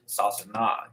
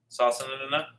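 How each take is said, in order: First: "sasana" with only one na at the end; single N sound. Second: "sasanana" with the N sounded twice, ending na-na; extra syllable. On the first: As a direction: say "sasana" in three syllables, sa-sa-na. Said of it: "pronounce an additional time". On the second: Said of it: "or do you go sasana". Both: Shown as a demonstration.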